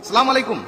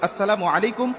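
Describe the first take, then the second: First: The greeting is clipped, with sounds dropped. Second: The greeting is said in full, every sound kept. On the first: It wishes harm on the listener. The speaker calls it wrong. "বেশি স্টাইল করতে গিয়ে" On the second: It wishes peace on the listener. The speaker calls it right. "সালামের উচ্চারণটা আমরা সঠিকভাবে দেবো"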